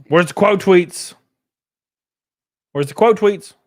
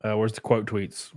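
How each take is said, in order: First: High, loud, insistent call; loud demanding question. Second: Said in the usual way. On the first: Real, not acted. Streamer hunting for quote tweets, loudly insistent. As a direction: repeat it louder, voice jumping up.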